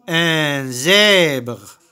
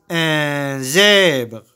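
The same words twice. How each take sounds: The two takes are said the same way.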